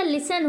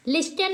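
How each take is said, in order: First: लिसन as "lis-an", no T; silent T. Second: लिस्टन with T sounded, "lis-tan"; wrong pronunciation. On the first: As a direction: go from S straight to the vowel in लिसन. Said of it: "लिसन होता है". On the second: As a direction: put a T after the S in लिस्टन. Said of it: "लिस्टन नहीं होता". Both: Shown as a demonstration.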